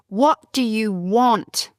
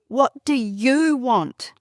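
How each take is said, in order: First: The word 'you' is not given special stress. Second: The word 'you' is given strong stress. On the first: The speaker calls it wrong. "I was saying it wrong" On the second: The speaker calls it right. "I'm supposed to say"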